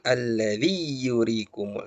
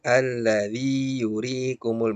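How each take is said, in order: First: The y is pressed and doubled into the next. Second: The vowel before y is held long, no doubling. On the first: The speaker calls it wrong. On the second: The speaker calls it right. "tapi biasa saja"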